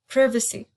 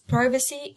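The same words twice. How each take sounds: First: It is said with a British pronunciation. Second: It is said with an American pronunciation. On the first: "in British English it is pronounced as privacy" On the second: "pronounced as privacy in American English"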